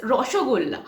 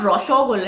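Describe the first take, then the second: First: रसोगोल्ला with rounded Bengali o vowels throughout, ro-sho-gol-la; correct Bengali pronunciation. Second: रसोगोल्ला said the Hindi way, with a flat short a instead of the rounded o; wrong Bengali vowels. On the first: Bengali vlogger demonstrates the proper Bengali रसोगोल्ला. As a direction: say रसोगोल्ला as a native Bengali would, rounding every o. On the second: Bengali vlogger shows how outsiders mispronounce रसोगोल्ला. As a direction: say रसोगोल्ला like a non-Bengali copying it, open a vowels. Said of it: "it's not". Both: Shown as a demonstration.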